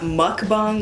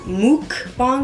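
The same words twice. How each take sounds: First: The first syllable has a short 'o' vowel. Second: The first syllable has a long 'oo' vowel. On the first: The speaker calls it right. "it's mok, like mogo" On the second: The speaker calls it wrong. "like moo, like a cow, is technically not the correct um, pronunciation"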